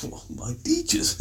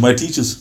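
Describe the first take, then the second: First: Imitating someone softly taken aback; mock astonishment. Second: Said in the usual way. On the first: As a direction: echo it very softly as if baffled, rising at the end. Acts astonished reaction to answer.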